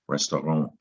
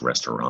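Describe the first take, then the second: First: The word is given a French pronunciation. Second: The word is given an English pronunciation. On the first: "is how you pronounce it in, in French" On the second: "we in English it seems like it's pronounced restaurant"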